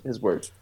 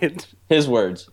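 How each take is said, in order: First: Said in the usual way. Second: Slow, weighted "his words"; stressing his words. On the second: Shown as a demonstration. Quoting the brother's exact phrase, slow "his words". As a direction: lean on "his words" as a direct quote.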